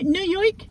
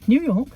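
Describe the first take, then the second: First: It is said in a put-on New York accent. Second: It is said in the speaker's own plain accent.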